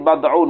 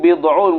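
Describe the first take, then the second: First: The vowel after b is a. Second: The vowel after b is i. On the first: "wa fathil ba, dan difathahkan ba" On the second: "bi kasril ba'i, dengan kasrah ba"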